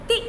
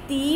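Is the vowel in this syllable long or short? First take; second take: short; long. First: The vowel is said quickly and short. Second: The vowel is drawn out long. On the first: The speaker calls it right. "जल्दी से, ती।" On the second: The speaker calls it wrong. "तो हम इसे ती नहीं बोलेंगे"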